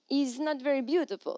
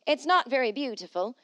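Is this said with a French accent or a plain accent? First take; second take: French accent; plain. First: It is said with a put-on French accent. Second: It is said in the speaker's ordinary accent. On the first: The speaker calls it right. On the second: The speaker calls it wrong.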